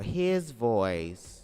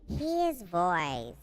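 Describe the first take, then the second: First: It is said in his normal voice. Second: It is said in a put-on camp voice.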